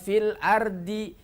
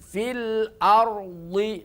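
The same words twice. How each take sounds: First: The r and d sounds are light. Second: The r and d sounds are heavy. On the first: The speaker calls it wrong. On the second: The speaker calls it right.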